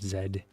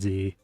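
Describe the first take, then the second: First: The letter is said the British way. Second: The letter is said the American way. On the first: "like Canada and Britain and all those groups say Z" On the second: "I say American Z"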